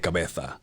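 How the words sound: The z is said like a th sound. This is how people from Spain say it. "They say cabeza"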